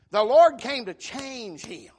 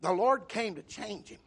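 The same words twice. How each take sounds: First: "The Lord came to change him" slow and louder, "Lord" hit hardest; emphatic repeat. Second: Said in the usual way. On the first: Shown as a demonstration. Preacher repeating to the church that "Lord" changed Paul, slow and loud. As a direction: lean hard on "Lord" and slow the whole line down. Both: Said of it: "I want you to notice".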